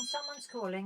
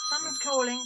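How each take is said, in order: First: Muttered aside. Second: Said in the usual way. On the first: Acted. Host muttering to herself while picking up the call, softer. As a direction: repeat it much softer, under your breath.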